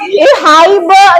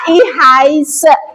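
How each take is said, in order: First: The middle consonant is pronounced as b. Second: The middle consonant is pronounced as s. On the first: The speaker calls it wrong. "jangan dibaca ihaibe" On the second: The speaker calls it right. "tapi ihais"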